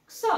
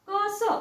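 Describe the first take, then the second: First: क्स as one quick k-s cluster; blended X sound. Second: क स as two separate sounds, slowly; X split apart. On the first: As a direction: sound out क्स with no vowel between k and s. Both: Shown as a demonstration. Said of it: "एक्स किंवा क्स".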